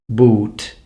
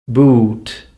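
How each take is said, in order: No difference in how they are said.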